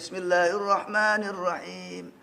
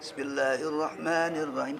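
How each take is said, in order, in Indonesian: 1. Keras tapi merdu dan mendayu. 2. Itu dibaca pelan dan khidmat. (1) "kencang suaranya... Mengayun" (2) "yang bacanya syahdu"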